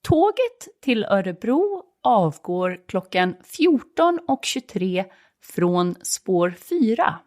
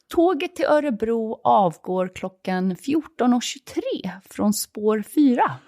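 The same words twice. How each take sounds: First: It is said at a slower pace. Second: It is said at a faster pace.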